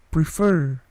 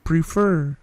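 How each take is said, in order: Both takes have the same delivery.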